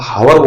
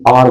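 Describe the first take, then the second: First: The word starts with an audible h sound. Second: The word starts with a vowel, no h sound. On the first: The speaker calls it wrong. "तब तो आप गलत हो जाएंगे" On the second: The speaker calls it right. "आर बोलते हैं इसको"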